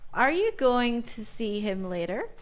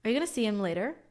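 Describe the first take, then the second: First: It is said slowly with every word clear. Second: It is said quickly with words run together.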